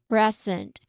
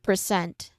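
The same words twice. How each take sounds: First: The stress is on the first syllable. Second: The stress is on the second syllable. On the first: It is the noun meaning a gift. The speaker calls it right. "First syllable is stressed" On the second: It is the verb meaning to show or give. The speaker calls it wrong. "Not present"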